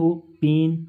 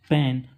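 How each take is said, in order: First: The vowel is a closed 'ay' sound. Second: The vowel is an open 'ae' sound. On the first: The speaker calls it right. "तो ऐसा नहीं है" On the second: The speaker calls it wrong. "हमेशा बोलते हैं"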